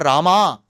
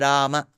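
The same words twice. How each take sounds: First: The name ends with a drawn-out final vowel. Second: The name ends with a short final vowel. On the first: The speaker calls it wrong. "neither ... nor Rama" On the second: The speaker calls it right. "It is Rama"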